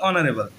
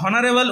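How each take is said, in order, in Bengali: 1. শব্দটি একটি স্বরধ্বনি দিয়ে শুরু হয়। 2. শব্দটি একটি h ধ্বনি দিয়ে শুরু হয়। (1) "আমরা উচ্চারণ করি কি অনারেবল" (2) "আমরা হনারেবল উচ্চারণ করি না"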